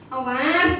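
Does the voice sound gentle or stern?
gentle. It is said in a mild, unthreatening tone. The speaker calls it wrong. "kan nggak mungkin kayak gitu"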